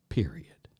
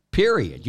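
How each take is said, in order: First: A hushed, whispered "Period." with a falling finish; breathy final word "Period." said low and unvoiced. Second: A loud "Period." slammed down with a falling finish; forceful full-voice "Period.". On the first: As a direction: drop to a firm whisper on "Period.". Hushed emphatic close to point. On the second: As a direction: bark out "Period." to end the argument. Loud emphatic close to point. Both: Real, not acted.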